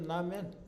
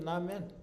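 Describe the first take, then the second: First: The second syllable has an 'ae' vowel. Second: The same.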